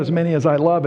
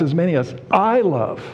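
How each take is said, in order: First: "love" carries the weight, "I" stays light; weight on "love", not on "I"; stress on love. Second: Emphatic "I" in "as many as I love"; stress on I. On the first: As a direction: lean on the word "love". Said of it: "it's not". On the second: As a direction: punch the word "I". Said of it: "the pronoun I is emphatic". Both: Shown as a demonstration.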